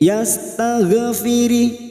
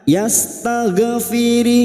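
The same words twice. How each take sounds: The two takes are said the same way.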